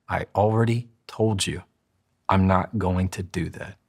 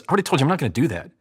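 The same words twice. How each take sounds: First: Slow, measured refusal with a pause; slowed down, in control. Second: Fast, high, reactive retort; rushed, little control. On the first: Coach showing full control of the same line, slow and steady. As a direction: take your time, sound fully in control. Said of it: "if I slow it down". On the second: Coach demonstrating someone out of control, rushed and higher. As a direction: blurt it out at double speed. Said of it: "I have maybe five percent control". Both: Shown as a demonstration.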